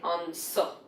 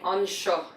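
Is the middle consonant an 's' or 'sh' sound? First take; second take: s; sh. First: The consonant is pronounced as 's'. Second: The consonant is pronounced as 'sh'. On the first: This is the Munster dialect form. "Another really specific thing to Munster Irish" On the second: This is the standard form. "instead of saying on sho"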